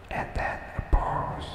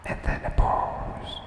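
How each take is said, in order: Both takes have the same delivery.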